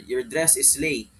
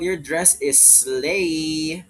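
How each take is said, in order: First: The word slay is said short and plain. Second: The word slay is stretched out long.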